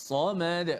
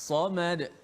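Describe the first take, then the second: Both takes have the same delivery.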